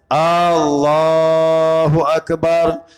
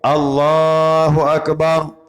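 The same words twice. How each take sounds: First: The first vowel of Allah is long. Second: The first vowel of Allah is short. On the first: It asks whether God is the greatest. The speaker calls it wrong. "Yang salahnya ... A-nya panjang" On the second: It states that God is the greatest. The speaker calls it right. "Yang betulnya ya"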